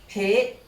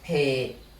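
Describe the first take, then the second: First: The word is said with a high tone. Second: The word is said with a low tone. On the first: It emphasizes the quality strongly. "to high tone pay" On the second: The ordinary form of the word. "from low tone pay"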